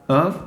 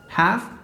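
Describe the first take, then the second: First: The word is reduced to a short 'of' sound. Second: The word is said in full with its consonants.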